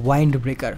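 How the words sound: Wind has a long 'eye' vowel sound. "British ইংরেজি উচ্চারণ অনুযায়ী"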